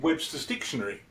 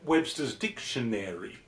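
First: It is said the British way, syllables merged. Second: It is said the American way, every syllable.

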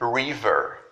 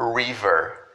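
First: The first sound is an English r sound. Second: The first sound is an English r sound.

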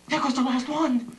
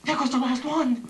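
First: It is said in a frightened tone. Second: The same.

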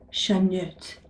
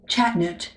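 First: The name is said with French-like pronunciation. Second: The name is said with English-like pronunciation. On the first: The speaker calls it wrong. "I'm going to pronounce this in how it looks to me in French" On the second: The speaker calls it right. "It's probably Chatnut"

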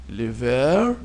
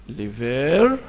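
The two takes are said the same way.

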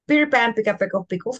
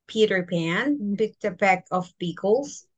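First: The sentence is said at a fast pace. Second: The sentence is said at a normal pace.

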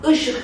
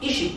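First: The first vowel is the back unrounded ı. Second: The first vowel is the front vowel i. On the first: This is how a native speaker says it. The speaker calls it right. "Işık diyemeyecek kardeşim" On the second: This is how a foreign learner says it. The speaker calls it wrong. "işik diyecek"

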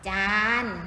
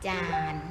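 First: The syllable is said with the saman tone. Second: The syllable is said with the ek tone. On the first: "ถ้าเป็นไม่มีรูปวรรณยุกต์แสดงว่าเป็นเสียงสามัญ" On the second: "รูปเอกเสียงเอก"

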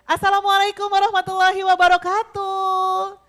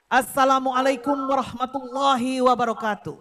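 First: The greeting sounds relaxed, cheerful and lively. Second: The greeting sounds measured, formal and dignified. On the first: This suits a relaxed, fun event like a show. "Pasti acaranya acara santai dan seru ya" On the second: This suits an official welcome address or speech. "Kalau sambutan, kalau pidato"

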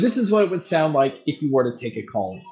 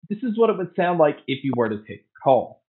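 First: The voice is heard with crowd noise behind it. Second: The voice is heard without crowd noise behind it. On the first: "here is a mic test with the crowd noise being played" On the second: "So here is the mic test using the Tozo A1s"

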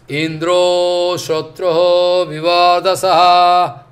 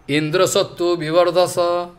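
First: The phrase is said longer and drawn out. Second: The phrase is said short and quick. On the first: Indra, the enemy, gains power. "second I speak different way" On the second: The enemy of Indra gains power. "first I speak very shortly"

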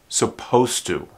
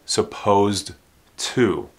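First: The D sound before 'to' is dropped. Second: The D sound before 'to' is clearly pronounced. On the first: The speaker calls it right. "It sounds like suppose without the D and then to" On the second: The speaker calls it wrong. "this D is not really pronounced. Don't say supposed to"

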